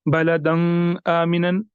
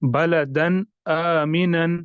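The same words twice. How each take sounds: First: "बलदन आमिनन" with न of बलदन blurred into ng; wrong nasalised demo; nasal tanween. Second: "बलदन आमिनन" slow with न of बलदन clear; careful correct recitation; clear tanween. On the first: Teacher shows students the wrong reading. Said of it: "ऐसे नहीं पढ़ना". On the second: Teacher contrasts the right reading for students. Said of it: "इस तरह". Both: Shown as a demonstration.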